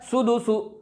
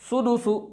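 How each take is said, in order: The two takes are said the same way.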